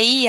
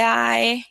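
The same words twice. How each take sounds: First: Letter "I" said as Portuguese "ee"; short "ee" sound. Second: Letter "I" said slowly as English "eye"; diphthong "eye" sound. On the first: Teacher contrasting the two readings, "I" said as "ee". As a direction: pronounce "I" like the vowel in "see". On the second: Teacher contrasting the two readings, "I" drawn out as "ai". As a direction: stretch "I" out as "ai". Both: Shown as a demonstration. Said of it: "pode ser tanto I quanto I".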